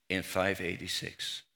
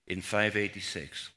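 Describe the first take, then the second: No difference in how they are said.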